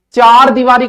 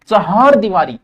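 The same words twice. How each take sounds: First: Loud, high चार दीवारी, one-syllable chaar; wrong pronunciation. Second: चहार दीवारी as cha-haar deevaaree; correct pronunciation. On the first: Teacher showing students the mistake, mispronounced demo. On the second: Teacher giving the correct phrase, careful pronunciation. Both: Shown as a demonstration. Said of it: "चार दीवारी को नहीं वे".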